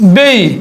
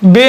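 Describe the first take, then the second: First: The vowel glides from 'e' into 'ee'. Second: The vowel is a plain, short 'e' sound. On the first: The speaker calls it right. "হয়ে যাবে বেই" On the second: The speaker calls it wrong. "বে নয়"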